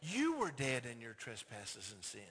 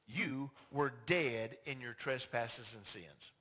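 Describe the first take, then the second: First: Low, slow and grave "You were dead in your trespasses and sins"; solemn slow quote. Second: Low, slow "You were dead in your trespasses and sins" with "dead" stressed; solemn scripture. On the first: Preacher to congregation, slow low solemn scripture. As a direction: drop low and let "dead" land heavy. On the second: Preacher quoting Paul, slow and low. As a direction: lean hard on "dead", slowly. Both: Shown as a demonstration.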